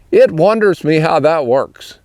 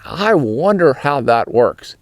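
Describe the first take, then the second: First: Pennsylvania Dutch phrasing of "It wonders me". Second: Said in the usual way. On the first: Shown as a demonstration. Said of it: "you might say". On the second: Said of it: "instead of saying".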